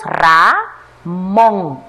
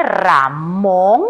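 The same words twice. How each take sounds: First: "Ramón" broken slowly into Ra, món; separado en sílabas. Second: Said in the usual way. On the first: Shown as a demonstration. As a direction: sound out "Ramón" with a clear gap between syllables. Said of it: "Separémosla en sílaba". ("Ramón" lento, en dos sílabas: Ra, món) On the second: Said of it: "Veamos la siguiente".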